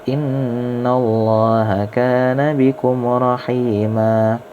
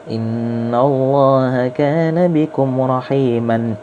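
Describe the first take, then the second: First: The last word ends in a long 'a' vowel. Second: The last word ends with an 'an' sound. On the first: The reading stops at this word. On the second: The reading continues into the next word.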